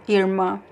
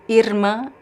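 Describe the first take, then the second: First: The R sounds like an English R. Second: The R is trilled with the tongue tip. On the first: "like similar to the English R" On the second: "vibrant at the tip of your tongue here"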